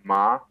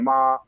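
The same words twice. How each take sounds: First: The syllable is said with a rising tone. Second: The syllable is said with the first tone. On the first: It means flax. "طلعنا بالصوت" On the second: It means mother. "نغمة أولى"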